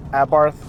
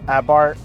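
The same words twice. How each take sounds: First: Abarth with th on the end; alternate pronunciation. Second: Abarth ending like "bart", no th; alternate pronunciation. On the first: Reviewer offering both versions of the name, Abarth ending in th. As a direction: say Abarth to rhyme with "hearth". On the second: Reviewer offering both versions of the name, Abarth without th. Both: Shown as a demonstration. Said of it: "however you pronounce it".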